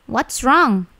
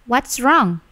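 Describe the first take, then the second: No difference in how they are said.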